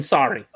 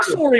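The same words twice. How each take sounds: First: Said in the usual way. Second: First "sorry" as "SORE-ee"; hard round O in "sorry"; Canadian "sorry". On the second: Shown as a demonstration. Preferring the Canadian form, "sorry" with hard O. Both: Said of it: "I like sorry more than sorry".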